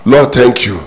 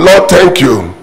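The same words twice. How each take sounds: First: Said in the usual way. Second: Shouted praise. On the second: Acted. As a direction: shout Lord out like a joyful praise. Preacher voices a grateful widow.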